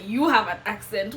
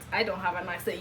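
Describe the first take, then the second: First: YOU hit louder in a mock retort; stress on YOU. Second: Said in the usual way. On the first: Newcomer retorting to people about her accent, stress on YOU. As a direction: throw the weight onto "You". Acted retort turning it back.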